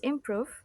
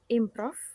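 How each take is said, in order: First: The word is said with a standard pronunciation. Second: The word is said with a learner's mispronunciation. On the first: The speaker calls it right. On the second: The speaker calls it wrong.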